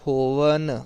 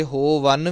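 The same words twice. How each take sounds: First: ਹੋਵਨ with long "ho", light "van"; correct light syllable. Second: ਹੋਵਨ split as "ho-vann", second syllable weighted; wrong doubled sound. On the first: Teacher modelling with care, light second syllable. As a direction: keep ਹੋਵਨ smooth, ending in dental n. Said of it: "ਨੰਨਾ ਜ਼ਰੂਰ ਲਾਉਣਾ". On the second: Teacher showing what not to say, weighted ending. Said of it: "ਵਾਵੇ ਨੂੰ ਟਿੱਪੀ ਜਾਂ ਅਦਕ ਨਹੀਂ ਲਾਉਣਾ". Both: Shown as a demonstration.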